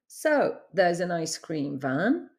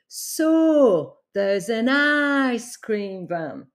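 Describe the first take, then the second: First: The vowels are short, as in standard English. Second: The O and I vowels are noticeably lengthened. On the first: "instead of saying" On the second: "you hear a longer vowel sound with the O and with the I"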